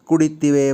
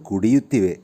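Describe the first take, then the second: First: The 'yu' syllable is barely heard. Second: The 'yu' syllable is clearly pronounced.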